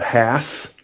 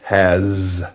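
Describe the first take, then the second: First: The word ends with an s sound. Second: The word ends with a z sound. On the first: The speaker calls it wrong. "It's not has" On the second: The speaker calls it right. "the S here makes the Z sound"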